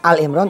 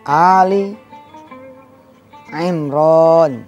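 First: The first word ends in L, with no vowel. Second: The first word ends with an i vowel after L. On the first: The speaker calls it wrong. "bukan Al Imran" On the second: The speaker calls it right. "tapi Ali"

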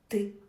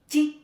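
First: The consonant is hard, not palatalized. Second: The consonant is soft, palatalized. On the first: "з'являються тверді звуки" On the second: "ще м'які"

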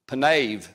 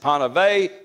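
First: The word ends with a v sound. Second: The word ends with an added vowel sound. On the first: The speaker calls it right. "it's panev. Ends with a V" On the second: The speaker calls it wrong. "Some say panevay... Panevay, it is not"

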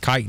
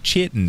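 First: The word begins with a k sound. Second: The word begins with a ch sound. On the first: The speaker calls it right. "the CH is actually pronounced like, well, silly old English" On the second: The speaker calls it wrong. "it's not chitin"

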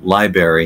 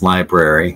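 First: The first R is left out of the word. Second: The first R is sounded in the word. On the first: The speaker calls it wrong. "When we were kids, we might have said library" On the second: The speaker calls it right. "but obviously it's library"

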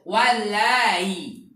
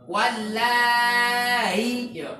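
First: The long vowel is held for two counts. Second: The long vowel is held for six counts. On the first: "Atau boleh dua harakat karena sudah ditashil" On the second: "Yang 6 harokat"

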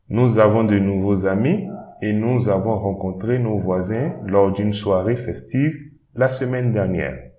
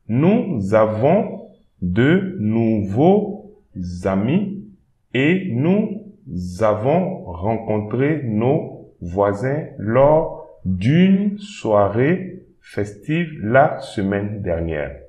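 First: It is read at normal pace. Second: It is read slowly.

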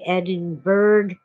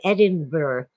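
First: It is said the American way, ending like 'burg'. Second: It is said the Scottish way, ending like 'borough'.

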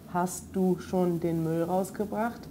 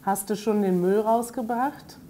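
First: Hast du is said fully as two words. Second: Hast du is merged into one reduced word. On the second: "ganz oft haste statt hast du"

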